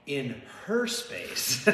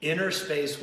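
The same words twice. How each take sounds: First: Pun title with HER stressed. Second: Said in the usual way. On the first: Shown as a demonstration. Punning twist on the film title.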